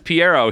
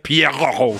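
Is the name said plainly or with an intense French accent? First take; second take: plainly; French accent. First: The name is said plainly, without a French flair. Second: The name is said intensely, with a French flair.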